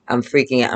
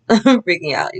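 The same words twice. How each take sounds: First: Said in the usual way. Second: Nervous giggle over the words; laughing at her own panic. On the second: Real, not acted. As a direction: say it through a laugh, a bit higher.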